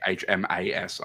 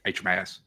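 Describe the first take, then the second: First: Each letter is said fully and clearly. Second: The letters are mumbled, the A skipped over. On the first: "I normally don't say H M A S" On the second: "I mumble a lot, so like ... I go like H M A S"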